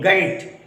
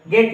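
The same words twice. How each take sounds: First: The vowel glides from 'e' toward 'i'. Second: The vowel is a single steady 'e' sound. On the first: The speaker calls it right. "वो आएगा ऐ" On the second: The speaker calls it wrong. "गेट नहीं"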